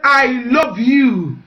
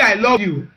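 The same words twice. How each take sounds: First: Pointed, insistent "I love you"; insistent slow repeat. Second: Said in the usual way. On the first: Retold or imitated. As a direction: drag out "I love you" to make him answer. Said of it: "I just said". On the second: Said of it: "Sometimes when I say".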